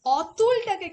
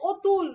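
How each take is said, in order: First: অতুল with an open "aw" at the start; open first vowel. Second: অতুল starting on a rounded "o"; changed o vowel. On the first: Teacher showing the seldom-heard form, অতুল with open "aw". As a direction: begin অতুল on a wide "aw", not "o". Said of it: "খুব কম আমরা অতুল উচ্চারণ করি". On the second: Teacher giving the usual spoken form, অতুল as loud "otul". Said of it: "আমরা কি উচ্চারণ করি?". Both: Shown as a demonstration.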